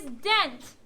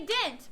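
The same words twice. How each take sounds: First: "dent" with a clear short e as in bed; careful eh vowel in "dent"; correct pronunciation. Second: "dent" said as "dint", short i; local pronunciation. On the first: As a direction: say "dent" with an open eh, not ih. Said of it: "but the correct way is dent". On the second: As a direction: say "dent" with the vowel of pin. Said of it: "We say dent". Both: Shown as a demonstration.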